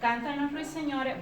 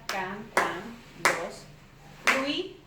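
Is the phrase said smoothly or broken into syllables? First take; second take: smoothly; syllables. First: The phrase is said smoothly without breaks. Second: Each syllable is said separately with breaks.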